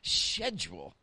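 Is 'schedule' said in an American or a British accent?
British. The word is said in a British accent. The speaker calls it right. "say this in your best British voice"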